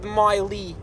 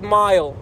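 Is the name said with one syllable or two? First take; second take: two; one. First: The name is said with two syllables. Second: The name is said with one syllable. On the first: The speaker calls it wrong. "Some people pronounce it miley. Weirdos" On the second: The speaker calls it right. "It's called mile"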